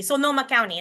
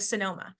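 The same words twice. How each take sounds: First: Sonoma with full Spanish o's; Spanish accent. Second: Said in the usual way. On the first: Shown as a demonstration. Lecturer giving a news anchor's version, Spanish accent. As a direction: say Sonoma County with Spanish vowels in Sonoma. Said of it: "with a Spanish accent". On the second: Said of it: "instead of Sonoma".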